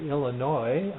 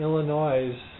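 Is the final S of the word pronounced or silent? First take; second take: silent; pronounced. First: The final S is silent. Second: The final S is pronounced. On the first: The speaker calls it right. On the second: The speaker calls it wrong.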